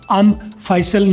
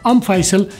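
First: The two words are said separately. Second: The two words are linked together. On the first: The speaker calls it wrong. "अम फैसल नहीं बोलना" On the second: The speaker calls it right. "मिला के बोल सकते, बोलना चाहिए"

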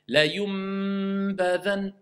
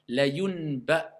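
First: A clear m sound is said before the b. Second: An n sound is attempted before the b. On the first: The speaker calls it right. "Clairement, je le prononce le mime" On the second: The speaker calls it wrong. "même si je veux prononcer le nom"

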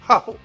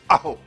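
First: The word starts with a breathy h sound. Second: The word starts with a catch in the throat. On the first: "ni haho" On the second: "et non pas aho"

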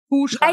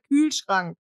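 First: The first vowel is a back oo sound. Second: The first vowel is a rounded front ü. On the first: The speaker calls it wrong. "Oder meine Mutter sagt Kuhschrank" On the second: The speaker calls it right. "Anstatt Kühlschrank"

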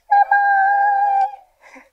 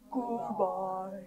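First: It is said in a very high voice. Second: It is said in a very low voice.

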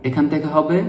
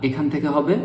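No difference in how they are said.

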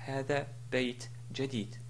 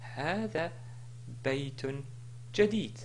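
First: The middle word ends without an 'on' sound. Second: The middle word ends with an 'on' sound. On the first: The speaker calls it wrong. "et non pas" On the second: The speaker calls it right. "Si je voulais continuer, je dis"

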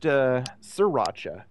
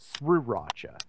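First: The R after the S is silent. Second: The R after the S is pronounced. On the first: The speaker calls it right. "that R is completely superfluous" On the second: The speaker calls it wrong. "It's spelled S-R-I-R, so I ended up pronouncing it as such"

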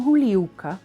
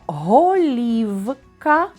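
First: The first vowel sounds like u. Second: The first vowel is a clear o. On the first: "а вимовляємо «гулівка»" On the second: "Пишемо «голівка»"

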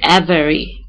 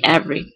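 First: The word is said with three syllables, keeping the middle vowel. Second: The word is said with two syllables, dropping the middle vowel. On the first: The speaker calls it wrong. "We don't say every, as English speakers" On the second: The speaker calls it right. "they say every"

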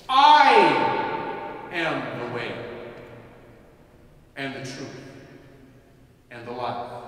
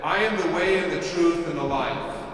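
First: It is read with strong emphasis. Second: It is read in a plain, even way.

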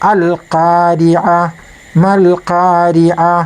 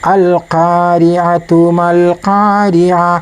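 First: The first word ends in an h sound with a stop. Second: The first word ends in a t sound, joined on. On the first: The reciter pauses after the word. "നിർത്തി ഓതുമ്പോൾ" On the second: The reciter joins the word to the next. "കൂട്ടി ഓതുമ്പോൾ"

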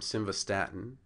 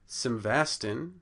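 First: The first syllable carries no stress. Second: The first syllable carries the stress. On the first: "the unaccented first two syllables" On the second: "an accented first syllable"

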